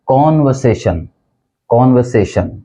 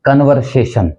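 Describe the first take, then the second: First: कॉन्वर्सेशन with open O, kon-vuh-say-shun; correct pronunciation. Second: कन्वर्सेशन with short first vowel, kun-var-say-shun; common mispronunciation. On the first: Teacher modelling the right word, कॉन्वर्सेशन as kon-vuh-say-shun. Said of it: "सही pronunciation है". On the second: Teacher showing what we commonly hear, कन्वर्सेशन as kun-var-say-shun. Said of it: "आमतौर पर जिसको हम". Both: Shown as a demonstration.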